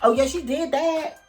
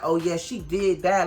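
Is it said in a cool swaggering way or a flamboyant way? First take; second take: flamboyant; cool swaggering. First: It is said in a flamboyant, showy way. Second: It is said in a cool, swaggering way.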